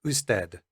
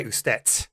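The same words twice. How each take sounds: First: Usted ending in a Spanish d; usted en español. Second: Wrong version, usted ending in a hard t; wrong voiceless t. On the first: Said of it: "And in Spanish". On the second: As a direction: end usted with a t, as a mistake. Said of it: "We don't say". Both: Shown as a demonstration.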